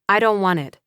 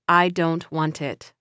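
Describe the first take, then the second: First: The words run together with sounds linked. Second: Each word is said separately without linking. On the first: "would sound like" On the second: "instead of"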